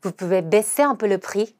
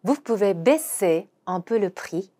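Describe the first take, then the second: First: Slow, "baisser" stressed; slow model sentence; slow repeat. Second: Very slow French; slow teaching read; slow demo pronunciation. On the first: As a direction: say again slowly. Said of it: "한 번 더". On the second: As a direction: model each word slowly. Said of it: "발음을 한번 해보도록 하겠습니다". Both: Shown as a demonstration.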